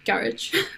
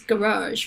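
First: It is said in a northern English way. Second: It is said in an American way, stressing the second syllable. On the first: "for me as a non-posh northerner, it's garage" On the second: "the U.S. is garage, right, with the second syllable stress"

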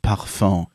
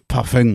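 First: It is pronounced the refined French way. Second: It is pronounced the blunt Berlin way.

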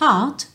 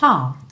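First: The final t is audibly released. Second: The final t is held, not released. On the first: "Pode aparecer, às vezes" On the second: "mas pode não aparecer"

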